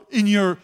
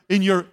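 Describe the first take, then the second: No difference in how they are said.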